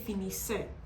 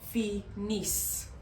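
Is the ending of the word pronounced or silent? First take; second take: pronounced; silent. First: The ending is pronounced aloud after the double s. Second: The ending is silent after the double s. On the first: The speaker calls it wrong. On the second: The speaker calls it right.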